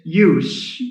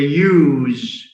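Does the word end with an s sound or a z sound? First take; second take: s sound; z sound. First: The word ends with a voiceless s sound. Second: The word ends with a voiced z sound. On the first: It is a noun. "then that's a noun" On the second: It is a verb. "Because it has a z sound, which is voiced"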